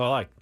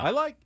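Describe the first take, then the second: First: It is said with the pitch going down low. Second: It is said in a high-pitched register. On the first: "And you kind of go down" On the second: "I register a higher octave"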